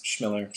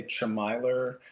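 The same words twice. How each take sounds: First: Schmiller as SHMILL-er, short i like Miller; Schmiller, rhyming with Miller; correct pronunciation. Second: Chmiler with a long i, like MILE-er; mispronounced surname. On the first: Shown as a demonstration. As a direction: say Schmiller as one smooth SHM onset plus ILL-er. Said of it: "but it's". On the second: Retold or imitated. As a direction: slowly imitate the wrong reading of Chmiler, with MY in it. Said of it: "people always try to spell it that way, or they say".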